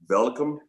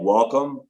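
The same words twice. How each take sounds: First: It is said with a German V-like sound. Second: It is said with a plain American W.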